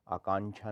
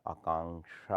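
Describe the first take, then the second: First: आकांक्षा said as aakaanchha; chh for ksh. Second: Said in the usual way. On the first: Shown as a demonstration. Teacher shows the error, आकांक्षा with chh. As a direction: put chh in place of क्ष in आकांक्षा. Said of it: "नहीं होता". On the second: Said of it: "होता है".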